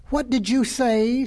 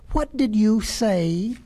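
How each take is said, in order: First: Slow, raised question leaning on "you", rising at the end; incredulous question. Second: Very slow question with the weight on "did"; insistent repeat. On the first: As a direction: ask it in disbelief, drawing out "What did you say". Hare challenges the tortoise's retort. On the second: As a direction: demand it word by word, stressing "did". Hare repeats it in tortoise's face. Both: Acted.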